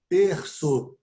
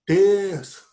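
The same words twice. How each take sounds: First: Said in the usual way. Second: Emphatic terço. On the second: Shown as a demonstration. Teacher joking with students, repeating terço louder for emphasis. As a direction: call out terço like a punchline. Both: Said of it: "uma sílaba por terço".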